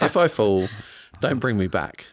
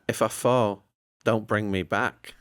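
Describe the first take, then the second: First: It is said in his normal accent. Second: It is said in a Northern English accent.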